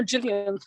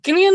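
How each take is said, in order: First: Gillian with a soft G, like Jillian. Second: Gillian with a hard G, as in gift. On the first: Offering another name option, Gillian with a soft G. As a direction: say Gillian starting with a j sound. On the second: Unsure of the actress's name, Gillian with a hard G. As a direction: say Gillian starting with a g as in go. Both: Shown as a demonstration. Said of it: "however you say her name".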